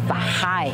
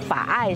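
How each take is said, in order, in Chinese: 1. 中间有听得见的H音。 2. 中间没有H音。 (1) "他们念法嗨" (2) "蓝屿人达悟叫法爱"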